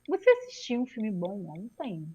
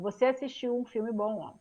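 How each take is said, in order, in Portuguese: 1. É dita com entonação de pergunta. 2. É dita com entonação de afirmação. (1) "Se for perguntar, eu vou falar assim, ó" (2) "eu falo assim"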